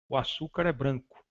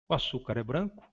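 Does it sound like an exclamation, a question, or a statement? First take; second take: statement; question. First: It is said with a falling, statement-like tune. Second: It is said with a questioning, rising tune. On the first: It asserts a fact. "afirmação" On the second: It asks whether this is true.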